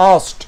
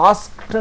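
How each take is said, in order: First: "asked" with silent k, like "ast". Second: "asked" with the k sounded, "askt"; wrong pronunciation. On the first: Teacher models "asked" for students, k left silent. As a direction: drop the k in "asked". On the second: Teacher shows students the mistake, "asked" with audible k. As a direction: say "asked" pronouncing the k clearly. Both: Shown as a demonstration. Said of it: "কের উচ্চারণটা কিন্তু কেটা silent থাকবে".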